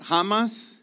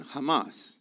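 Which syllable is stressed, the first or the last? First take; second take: first; last. First: The stress is on the first syllable. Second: The stress is on the last syllable. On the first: The speaker calls it wrong. "Not Hamas" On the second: The speaker calls it right. "The diacritical mark is on the M-A at the end"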